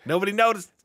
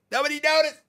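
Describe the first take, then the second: First: Silly high voice. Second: Squeaky high voice. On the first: Jokey repeat, high voice. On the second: Repeated, even higher. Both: Pretend.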